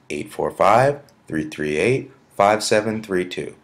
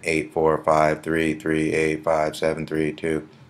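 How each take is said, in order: First: The digits come in three groups with rhythm. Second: The digits come one by one, evenly. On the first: The number is easier to remember. The speaker calls it right. "if you use the sort of um, cadence or tone" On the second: The number is harder to remember. The speaker calls it wrong. "It's easier than"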